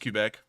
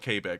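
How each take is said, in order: First: The first syllable is a short 'kuh' sound. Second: The first syllable is a long 'kay' sound. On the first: This is the accepted pronunciation of the name. "I know it's Quebec" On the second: This is a joking nickname adopted for the night. "we're going to call it Quebec for the rest of the night"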